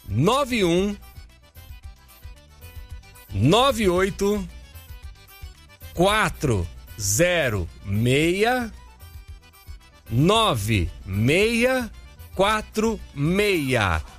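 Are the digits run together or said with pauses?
with pauses. The digits are said slowly with pauses between.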